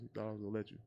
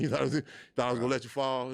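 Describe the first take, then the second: First: Said in the usual way. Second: Louder, higher, faster teasing voice of God. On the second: Retold or imitated. God scoffing at a believer who thought he'd fall, loud. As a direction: tease like God scoffing at your doubt. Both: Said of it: "looking at you like".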